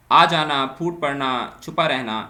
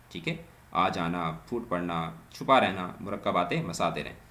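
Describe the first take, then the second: First: Loud, clear listing of آ جانا، پھوٹ پڑنا، چھپا رہنا; loud example list. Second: Said in the usual way. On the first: Shown as a demonstration. Teacher announcing example verbs to students, loud. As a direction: call out each example to the class.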